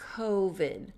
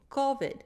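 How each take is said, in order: First: The O is an American vowel with tighter lips. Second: The O is a Spanish-style vowel. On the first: "notice my lips get smaller" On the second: "if you come from a Spanish speaking country, you're probably going to say"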